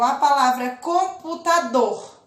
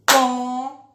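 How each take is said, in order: First: Said in the usual way. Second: "Computador" split as com-pu-ta-dor, louder; syllables split. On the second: Shown as a demonstration. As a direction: clap out "Computador" in four beats. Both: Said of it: "bati a mão quatro vezes".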